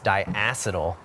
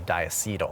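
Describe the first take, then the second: First: It is pronounced the way brewers say it. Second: It is pronounced the way chemists say it. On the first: The speaker belongs to the beer community. "in the beer community, it's diacetyl" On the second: The speaker has studied chemistry. "if you're maybe like you took chemistry or something like that, you'd say diacetyl"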